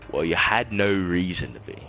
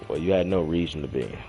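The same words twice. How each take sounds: First: It is spoken in a put-on British accent. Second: It is spoken in the speaker's usual accent.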